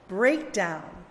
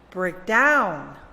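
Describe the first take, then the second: First: The stress is on the first part. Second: The stress is on the second part. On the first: It is used as a noun. "read the nouns with the stress on the first syllable" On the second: It is used as a verb. "the opposite"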